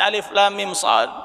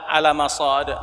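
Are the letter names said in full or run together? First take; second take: in full; run together. First: Each letter name is said in full, separately. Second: The letter names are shortened and run together. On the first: The speaker calls it right. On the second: The speaker calls it wrong. "Ada baca"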